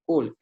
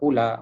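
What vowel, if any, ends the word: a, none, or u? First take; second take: none; a. First: The word ends on the consonant l, no vowel. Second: The word ends with a short a vowel. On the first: The speaker calls it right. "dibaca dengan kul" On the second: The speaker calls it wrong. "Tak dibaca dengan kula"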